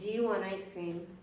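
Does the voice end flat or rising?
flat. The voice stays flat at the end. It is unclear whether a question is asked. The speaker calls it wrong. "It sounds weird"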